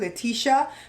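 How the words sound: The name is pronounced the American way. "Americans say Letitia"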